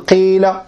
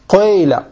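First: The first vowel is a pure i sound. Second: The first vowel is an i tinged with u. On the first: "لغة الكسر الخالص" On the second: "ولكن تخلطه بضم"

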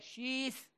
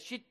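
First: The name ends with a lisped th sound. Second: The name ends with a plain t sound. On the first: The speaker calls it right. "Sonu peltekse" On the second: The speaker calls it wrong. "şit değil"

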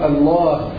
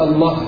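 First: The vowel before the final h is long. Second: The vowel before the final h is short. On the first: The speaker calls it right. "هذه مثبتة باللفظ" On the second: The speaker calls it wrong. "لا يجوز حذف الألف"

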